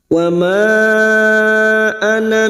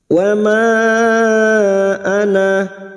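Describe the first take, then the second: First: The final vowel of ana is kept short. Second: The final vowel of ana is held long. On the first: The reciter continues without stopping. "sekarang kita baca wasol atau terus, maka na kita baca pendek" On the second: The reciter stops after this word. "pada saat dibaca waqaf maka na kita panjangkan dua harokat"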